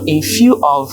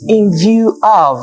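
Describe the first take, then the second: First: The middle word begins with an F sound. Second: The middle word begins with a V sound. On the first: The speaker calls it wrong. "who has the F and V factor" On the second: The speaker calls it right. "the speaker meant in view of"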